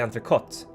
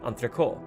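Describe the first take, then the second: First: The word ends with an audible final T sound. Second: The word ends without a final T sound. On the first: This is the original French form. "which is actually entrecote in French" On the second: This is how Swedish speakers say it. "in Sweden we say entrecot ... we lost the T at the end"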